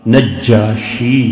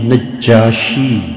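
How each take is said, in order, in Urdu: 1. ج کی آواز کھینچی ہوئی اور دوہری ہے۔ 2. ج کی آواز کھینچی ہوئی اور دوہری ہے۔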